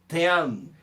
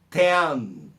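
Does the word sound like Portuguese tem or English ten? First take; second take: English ten; English ten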